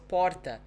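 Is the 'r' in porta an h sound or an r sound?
r sound. The r in porta sounds like an r. This is how people in São Paulo say it. "means also porta in São Paulo"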